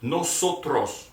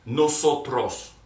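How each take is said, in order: First: "Nosotros" repeated slowly, each syllable clear; slow model pronunciation. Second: "Nosotros" slow, loud, every syllable clear; slow model pronunciation. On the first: Teacher repeating "Nosotros" slowly with the class. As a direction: say "Nosotros" again, slow and even. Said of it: "Let's say it one more time". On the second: Teacher saying "Nosotros" slowly together with students. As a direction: spell out "Nosotros" with rolled care, slowly. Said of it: "let's say it together". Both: Shown as a demonstration.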